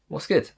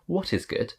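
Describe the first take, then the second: First: The first two words are contracted together. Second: Each word is said fully and separately. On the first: The speaker calls it right. "You would say" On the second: The speaker calls it wrong. "I think it sounds really unnatural when someone says"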